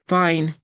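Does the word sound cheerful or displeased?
displeased. It is said flatly, without warmth. The person is not really fine. "Different tone"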